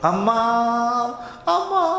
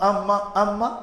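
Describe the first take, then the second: First: The name is called out loudly, as if crying. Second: The name is called in a calm, ordinary voice. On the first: The child is desperate because the door stays shut. "फिर वो चिल्लाता है, रोता है, और कैसे पुकारता" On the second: The child is first simply knocking to be let in. "पहले पहले तो दरवाजा में धक्का लगाता"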